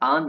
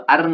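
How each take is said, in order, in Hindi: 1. स्वर हल्के और नरम तरीके से बोला जाता है। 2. स्वर भारी और पूरी तरह से बोला जाता है। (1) "हल्का सा" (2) "अर्न नहीं बोलते"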